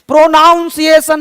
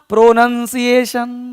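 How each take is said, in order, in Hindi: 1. दूसरा अक्षर 'nown' जैसा सुनाई देता है। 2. दूसरा अक्षर 'nun' जैसा सुनाई देता है। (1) "प्रोनाउंसिएशन नहीं बोलना" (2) "प्रोनंसिएशन क्या बोलना है? प्रोनंसिएशन"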